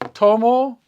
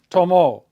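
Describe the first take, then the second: First: The stress is on the first syllable. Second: The stress is on the last syllable. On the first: I drink or take. "Listen to the difference" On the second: He or she drank or took. "it gets an accent mark"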